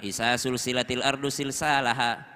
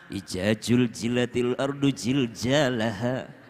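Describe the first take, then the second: First: It is read with a Sulawesi accent, all s sounds. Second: It is read with a Javanese accent, all j sounds.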